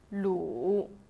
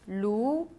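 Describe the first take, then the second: First: The pitch dips low, then rises. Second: The pitch rises from middle to high.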